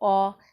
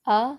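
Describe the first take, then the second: First: The vowel is heavy and full-mouthed. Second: The vowel is light and thin. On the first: "जैसे खौफ और हैरत में इंग्लिश का वर्ड" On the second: "आ बारीक पढ़ा जाता है"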